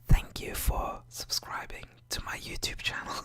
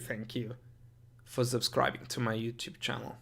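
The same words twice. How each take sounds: First: It is spoken in a soft whisper. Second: It is spoken in a normal full voice.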